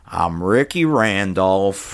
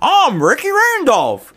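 First: It is said in a flat, bored tone. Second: It is said in an upbeat, excited tone.

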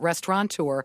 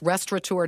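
First: It is said with an n sound. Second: It is said without an n sound. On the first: The speaker calls it wrong. "not restaurateur" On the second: The speaker calls it right. "I'm so glad you're the type of people who would know it's restaurateur"

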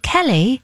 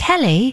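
First: The name is said with an Irish-sounding accent. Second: The name is said with an Irish-sounding accent.

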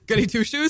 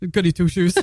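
First: It is said in her normal voice. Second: It is said in a lower voice.

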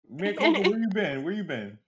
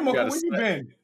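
First: It is said in a put-on character voice. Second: It is said in the speaker's own natural voice.

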